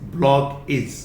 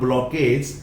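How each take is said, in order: First: The final syllable sounds like 'idge'. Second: The final syllable sounds like 'edge'. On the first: The speaker calls it right. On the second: The speaker calls it wrong. "Not ब्लॉकेज"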